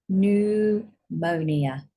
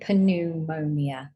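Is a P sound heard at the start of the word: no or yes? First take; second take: no; yes. First: The word begins with no P sound. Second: The word begins with a P sound. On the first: The speaker calls it right. "We do not say the P" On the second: The speaker calls it wrong. "We don't say pneumonia. We do not say the P"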